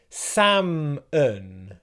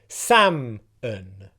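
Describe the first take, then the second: First: Both syllables carry equal stress. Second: The first syllable is much more stressed. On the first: "I was stressing both syllables equally there" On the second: "pronounce the first syllable with much more stress"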